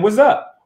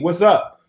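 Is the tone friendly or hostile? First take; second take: hostile; friendly. First: It is said in a hostile, confrontational tone. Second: It is said in a warm, friendly tone. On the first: It challenges someone about what they are looking at. "What's up could also mean what the fuck is you looking at?" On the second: It is a friendly greeting. "What's up could mean how you doing, brother"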